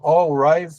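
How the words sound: The name has a Brazilian Portuguese pronunciation. The speaker calls it wrong. "Algumas pessoas aqui no Brasil falam"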